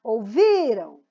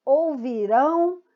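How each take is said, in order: First: Ouviram with VI long and punched, falling away after; Ouviram, weight on the middle syllable; stress on VI. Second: Ouvirão slowly, final RÃO held strong; ouvirão, drawn out to a stressed ending. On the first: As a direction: hit VI in Ouviram and let the ending die. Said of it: "o rão vai morrendo aí o som dele". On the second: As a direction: land hard on the last syllable of ouvirão. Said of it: "a sílaba rão". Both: Shown as a demonstration.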